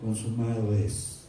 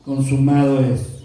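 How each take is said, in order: First: Much softer and lower, slow; mock gentle hushed tone; calm and tranquil. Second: A touch stronger declaration; a bit less tranquil. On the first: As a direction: say it softly, serenely. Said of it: "de una manera muy tranquila". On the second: Retold or imitated. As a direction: give it some force. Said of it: "un poquito no tan tranquilo".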